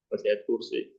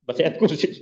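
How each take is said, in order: First: Laughing softly through the words. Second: Said in the usual way. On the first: Shown as a demonstration. Preacher repeats his joke about reciting the verse, laughing. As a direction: chuckle it out quietly. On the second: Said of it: "baca ayat kursi aja".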